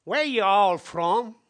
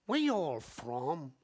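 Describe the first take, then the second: First: "Where you all from?" redone louder, stress on "where", rising; "where" hit hard, slow and loud, rising tune; louder retold question. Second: Put-on quoted girl's question. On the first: Shown as a demonstration. Preacher redoes the girl's question louder. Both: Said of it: "Wait a minute".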